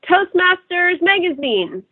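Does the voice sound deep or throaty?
throaty. The voice is higher and pinched in the throat. The speaker calls it wrong. "throat without a deep breath"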